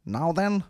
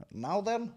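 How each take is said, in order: First: Higher, lightly voiced "Now then" with a rise; mock single hook. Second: Much higher and softer "Now then" with a rise; a thin, quiet take on the title; mock single hook. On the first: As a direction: tease the song title. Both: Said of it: "My new single, Now Then".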